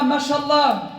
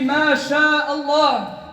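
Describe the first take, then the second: First: The name inside the word is run together, clipped. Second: The name inside the word is said separately, fully. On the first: The speaker calls it wrong. "Ne dis pas" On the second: The speaker calls it right.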